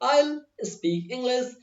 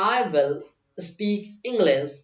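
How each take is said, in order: First: 'I will' is said as one short 'I'll'. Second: 'I will' is said as two full words. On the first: The speaker calls it right. "Short form use करो ज्यादा अच्छी fluency आएगी" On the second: The speaker calls it wrong. "मैं आपसे कह रहा हूं ऐसा ना बोले आप"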